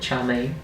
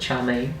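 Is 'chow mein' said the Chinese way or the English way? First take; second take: English; English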